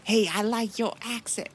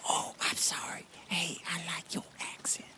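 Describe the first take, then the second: First: Loud, higher-pitched American admirer; gushing American fan. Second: Hushed, voiceless apology and compliment; acted whisper. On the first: Acted. Everyday American praising a foreigner's accent, gushing. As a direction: call out a keen compliment, acting the American. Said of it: "everyday American would fucking love that accent". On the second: American admirer apologising to the Liberian, whispering.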